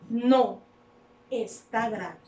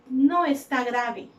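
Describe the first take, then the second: First: There is a pause after the first word. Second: The words run together with no pause. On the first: The sick person is still seriously ill. "Más en la segunda opción, hace énfasis en que sigue grave" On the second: The sick person is not seriously ill. "En la primera opción, si la persona estaba enferma, ya está diciendo que ya está mejorando de salud"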